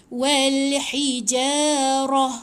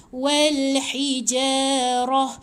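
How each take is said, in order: No difference in how they are said.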